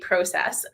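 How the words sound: It is said with a Canadian pronunciation. The speaker calls it right. "making it speak Canadian"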